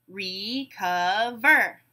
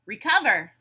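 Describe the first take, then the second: First: "Recover" very slowly, re-cov-er; syllable by syllable. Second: Said in the usual way. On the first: Shown as a demonstration. Teacher breaking a word into syllables, beat by beat. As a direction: stretch "Recover" into three separate beats. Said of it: "we'll break it into syllables". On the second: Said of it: "I'll say a word".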